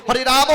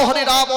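The two takes are said the same way.

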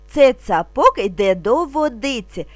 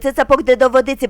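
First: The phrase is spoken slowly and calmly. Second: The phrase is spoken very quickly. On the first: "спокійно, не спіша" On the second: "дуже швидко"

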